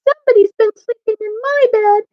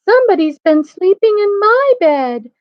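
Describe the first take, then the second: First: The voice sounds wee and little. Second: The voice sounds middle-sized. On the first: "in his wee little voice" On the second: "in her middle-sized voice"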